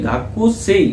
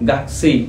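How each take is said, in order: First: The vowel after 'gak' is fully pronounced. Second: The vowel after 'gak' is dropped. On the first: "লেখা থাকলেও" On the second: "গাক্সেই আপনারা উচ্চারণ করবেন"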